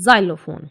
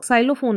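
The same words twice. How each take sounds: First: "xylophone" starting with a clear z sound. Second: "xylophone" opened with an s sound, the wrong way; wrong ks version. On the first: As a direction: open "xylophone" with z, not ks. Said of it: "इसको हम एक्सलोफोन नहीं पढ़ेंगे". ("xylophone" ज की आवाज़ से) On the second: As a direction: say "xylophone" with s first, as the mistake. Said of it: "हम इसको xylophone नहीं पढ़ेंगे". ("xylophone" गलत स की आवाज़ से) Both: Shown as a demonstration.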